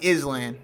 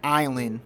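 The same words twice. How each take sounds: First: The S is pronounced, said iss-land. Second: The S is silent, said eye-land. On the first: "if you use your brain" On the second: "the word island"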